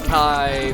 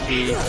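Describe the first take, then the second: First: The word is said with an 'eye' vowel. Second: The word is said with an 'ee' vowel. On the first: The speaker calls it wrong. "Some people say Kai" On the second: The speaker calls it right. "the actual pronunciation is Key"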